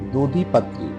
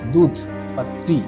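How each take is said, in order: First: The name begins with the syllables 'dadhi'. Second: The name begins with the syllable 'dudh'. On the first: This is the Kashmiri pronunciation. "Kashmiri উচ্চারণ হচ্ছে" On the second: This is the Urdu pronunciation. "Urdu উচ্চারণ হচ্ছে"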